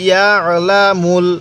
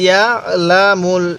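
The two takes are said the same way.

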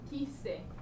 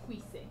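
First: The k sound goes straight into the vowel. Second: A 'w' sound follows the k sound. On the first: The speaker calls it right. "you don't hear that U at all. So just quise" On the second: The speaker calls it wrong. "not quise"

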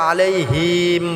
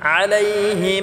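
First: The final syllable is drawn out long. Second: The final syllable is kept short. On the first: The speaker calls it wrong. "অনেকে আছে আমরা আলাইহিম বলি, এখানে আলাইহিম হবে না" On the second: The speaker calls it right. "হিমটা আমরা খাটা করব, এটা টান করা যাবে না"

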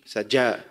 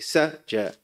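First: The stress is on the second syllable. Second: The stress is on the first syllable. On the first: The speaker calls it wrong. "not to put emphasis on the jim" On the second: The speaker calls it right. "You say"

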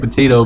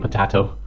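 First: It is said with a plain English accent. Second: It is said with an Italian accent. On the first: "some people say potato" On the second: "but the Italians say potato"

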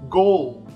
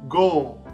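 The two takes are said the same way.

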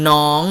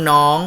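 Both takes have the same delivery.

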